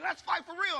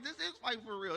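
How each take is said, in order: First: High, loud challenge; imitating worked-up brother. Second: Said in the usual way. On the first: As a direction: demand it loudly, pitched way up. Brother challenges him to keep fighting.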